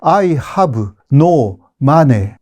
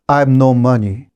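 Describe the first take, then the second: First: It is said with Japanese katakana-style pronunciation. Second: It is said with English pronunciation. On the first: The speaker calls it wrong. "일본 사람들은 I have no money 그럼 무슨 말인지 몰라요" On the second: The speaker calls it right. "이렇게 하면 되잖아요"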